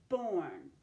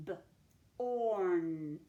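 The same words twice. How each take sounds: First: Said in the usual way. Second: "B-orn" split into a short buh, then a long held orn; sounded out. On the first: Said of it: "tackle the second syllable of newborn". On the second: Shown as a demonstration. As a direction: sound out "B-orn" with a gap after the b. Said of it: "Let's sound that out".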